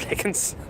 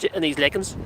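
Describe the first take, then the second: First: Laughing. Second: Said in the usual way. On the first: Real, not acted. Laughing at her own word slip.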